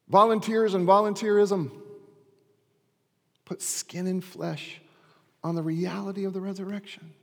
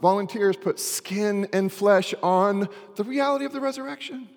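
First: It is said slowly. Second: It is said at normal speed.

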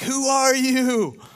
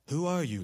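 First: It sounds frightened and shaky. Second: It sounds calm and formal.

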